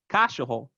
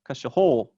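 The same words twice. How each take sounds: First: The stress is on the first syllable. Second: The stress is on the last syllable. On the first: "If it was on the first syllable, it would be like" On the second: "If it was on the last syllable, it would sound like"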